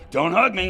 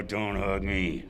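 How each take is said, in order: First: Loud and high, a sharp warning; half-mock alarmed protest. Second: Slow, soft, resigned protest; half-hearted mock defeat; weary protest. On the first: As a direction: bark it out to keep him away. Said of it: "and I'd go". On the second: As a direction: drag it out like you've given up. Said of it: "And I'd go".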